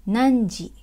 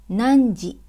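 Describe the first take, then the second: The two takes are said the same way.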